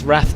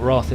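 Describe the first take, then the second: First: The word is said with a 'rath' vowel. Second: The word is said with a 'roth' vowel. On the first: The speaker calls it right. "it's Wrath" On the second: The speaker calls it wrong. "not Roth ... I've been saying it wrong"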